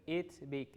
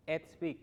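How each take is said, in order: First: "it's" with a tight ee; Spanish i vowel in "it's"; wrong pronunciation. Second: "It's" opened to "ets"; correct pronunciation. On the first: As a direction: say "it's big" as "eets big". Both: Shown as a demonstration.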